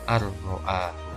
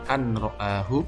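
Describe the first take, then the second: First: The n sound merges fully into the r. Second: The n sound is pronounced before the r.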